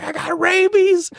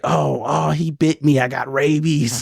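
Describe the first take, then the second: First: Very high, drawn-out mock shriek; mock scream. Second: Higher, panicked mock cry; mock scream. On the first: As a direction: imitate a panicked scream at the top. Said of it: "He screamed at the top". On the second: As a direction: wail it lightly, imitating a bitten victim. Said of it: "he screamed it".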